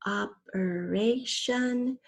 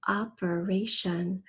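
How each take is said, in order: First: "Operation" very slowly in four beats; syllable by syllable. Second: Said in the usual way. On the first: Shown as a demonstration. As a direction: stretch each syllable of "Operation". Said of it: "We have the fourth syllable". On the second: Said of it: "First, say the whole word".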